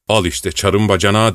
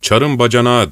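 First: Put-on muttered old-servant grumble; grumbling to himself. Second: Booming driver. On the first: Savelyiç grumbles to himself behind the hero. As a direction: grouse under your breath. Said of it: "diye homurdanıyordu kendi kendine". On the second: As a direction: boom it out to the patrol. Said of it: "arabacı gür bir sesle". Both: A narrator's reading.

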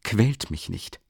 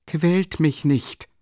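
First: Mildly irritated, restrained plea; understated annoyance. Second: High, slow irritated plea; irritated, drawn-out higher voice. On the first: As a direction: say it testily, without raising the voice. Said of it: "wiederholte er gereizt". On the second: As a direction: drag it out, sharply annoyed. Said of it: "mit einer gereizten Bewegung". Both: A narrator's reading.

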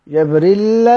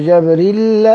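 First: جبريل ending on a long held lam; doubled lam. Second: جبريل with the final lam held long; doubled lam. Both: Shown as a demonstration. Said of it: "بتجديد اللام".

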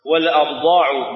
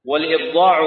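First: "والأبضاع" with an a vowel after the article, abḍāʿ; fatha on the hamza. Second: "والإبضاع" with an i vowel after the article, ibḍāʿ; kasra on the hamza. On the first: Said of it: "بالفتح". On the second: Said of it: "بالكسر". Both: Shown as a demonstration.

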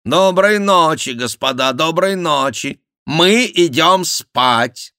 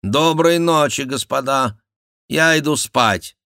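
First: High, loud mock royal voice, very slow at the end; imitating Henri. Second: King's goodnight. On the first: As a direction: ape the king's languid goodnight. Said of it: "подражая голосу Генриха". (насмешливое подражание голосу короля, высоко и громко) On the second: Acted. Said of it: "сказал король".

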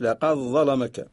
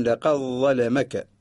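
First: لقد ظلمك with the dal merged into the ظ; Warsh reading. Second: لقد ظلمك slow, with a clear dal before ظ; Qalun reading. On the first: Teacher shows the Warsh reading, merged dal. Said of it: "نقرأ لورش". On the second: Teacher shows the Qalun reading, slow and separate. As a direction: keep the dal of لقد apart, slowly. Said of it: "ونقرأ لقالون". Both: Shown as a demonstration.

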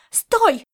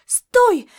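First: Loud, high barked stop; cat chasing Laszlo, shouting loud and high; shouted command. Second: Even louder, higher yell; cat yelling after fleeing Laszlo, very loud; shouted command. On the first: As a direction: yell after him as he runs. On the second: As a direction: bellow it at full force mid-chase. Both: Acted.

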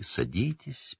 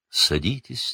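First: A quieter, fading second invitation; softer welcoming seer. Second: Soft, gracious invitation to sit; welcoming seer. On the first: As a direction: trail off the invitation gently. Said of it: "как дорогих гостей". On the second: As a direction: greet the pupils like honoured guests. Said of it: "приглашала профессор Трелани учеников, как дорогих гостей". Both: A narrator's reading.

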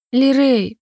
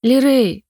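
First: Worried mother calling her son from afar; anxious call. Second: Worried mother calling again, a bit louder; anxious call. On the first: Mother anxiously calls for missing son, raised call. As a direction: call out the boy's name, alarmed. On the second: Mother still searching for her son, anxious raised call. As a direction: call his name once more, alarmed. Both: Acted. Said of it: "послышался тревожный голос".

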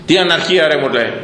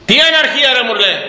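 First: Said in the usual way. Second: Higher, louder outraged quote; mock indignant retort. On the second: Quoting a man who cries anarchy, higher and louder. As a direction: throw back the accuser's words, higher and louder.

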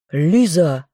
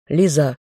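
First: Barked name. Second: Said in the usual way. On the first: A narrator's reading. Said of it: "рявкнула Лентер".

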